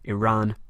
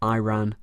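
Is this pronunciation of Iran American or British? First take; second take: British; American. First: It is said with a British pronunciation. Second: It is said with an American pronunciation. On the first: "I'm going to go with British rather than American pronunciation" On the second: "rather than"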